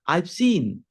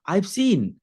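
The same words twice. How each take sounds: First: "I have" is shortened to one syllable. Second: The same.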